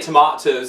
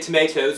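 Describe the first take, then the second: First: It is said with a British pronunciation. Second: It is said with an American pronunciation. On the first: "We say tomatoes over in in England" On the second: "Americans say tomatoes"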